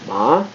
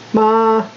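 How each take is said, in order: First: The pitch rises like a question. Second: The pitch stays high and level. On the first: It means hemp. "It's almost like asking a question" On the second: It means mother. "There's a high tone, which they call first tone"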